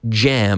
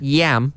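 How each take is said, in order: First: The word begins with a J sound. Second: The word begins with a Y sound. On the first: The speaker calls it right. "but jam" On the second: The speaker calls it wrong. "not yam"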